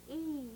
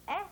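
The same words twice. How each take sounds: First: E stretched out as "ee"; long E. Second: Eh as the vowel in "bed"; short E. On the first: Teacher drilling pupils on long E. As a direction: draw out E like the letter name. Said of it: "long sound". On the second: Teacher drilling pupils on short eh. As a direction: keep eh brief and open. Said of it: "Short sound". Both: Shown as a demonstration.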